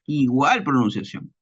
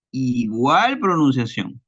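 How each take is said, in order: First: Said in the usual way. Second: "igual pronunciación" drawn out slowly, "igual" weighted; slow emphasis. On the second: Shown as a demonstration. Student driving home the rule to classmates, slow and emphatic. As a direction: lean on "igual" and stretch the phrase.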